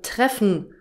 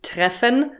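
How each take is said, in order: First: "treffen" as "treff'n", the e dropped; swallowed ending. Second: "treffen" with a clear full -en, rising; teacher says "treffen" fully, every sound pronounced; careful full ending. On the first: Teacher models the everyday "treffen" to learners. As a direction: say "treffen" with the -en clipped short. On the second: Teacher contrasts careful "treffen" with its colloquial form. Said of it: "Nicht ... sondern". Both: Shown as a demonstration.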